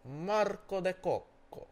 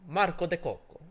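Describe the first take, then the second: First: High, loud, slow fake Italian name; drawn-out mock Italian. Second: Loud, high fake Italian name; mock Italian accent. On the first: Asked to say the name one more time, drawn-out mock Italian accent. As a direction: stretch every syllable in hammed-up Italian. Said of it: "One more time?". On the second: The next undercover guy giving his name, hammed-up Italian accent. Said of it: "they're acting like Italian".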